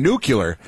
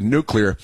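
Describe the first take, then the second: First: "nuclear" said wrongly as NOO-kyuh-ler; mispronounced nuclear. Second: Said in the usual way. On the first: Retold or imitated. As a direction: imitate the slip "nucular" for "nuclear", drawn out slowly. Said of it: "Is he mispronouncing the word nuclear". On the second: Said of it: "I learned the word nuclear".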